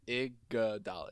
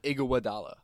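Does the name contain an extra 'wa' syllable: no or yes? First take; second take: no; yes. First: The name is said without an extra syllable. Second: The name is said with an extra 'wa' syllable. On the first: The speaker calls it right. "Don't add extra syllables" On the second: The speaker calls it wrong. "It's not Iguodala. There's no f***ing Iguwa"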